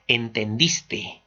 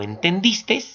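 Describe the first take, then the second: First: Said in the usual way. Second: "entendiste" said with an extra s, "entendistes"; wrong final s. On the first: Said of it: "solamente es". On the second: Shown as a demonstration. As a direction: close "entendiste" on an added s sound. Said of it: "está incorrectamente utilizado".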